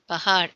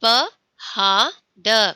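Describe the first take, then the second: First: Said in the usual way. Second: पहाड़ said very slowly, each sound stretched; drawn-out model word. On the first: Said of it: "ऐसा बोलना है". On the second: Shown as a demonstration. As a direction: stretch out पहाड़ syllable by syllable for the class. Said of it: "पहाड़, ऐसा बोलना है". (पहाड़ को बहुत धीरे, हर ध्वनि खींचकर)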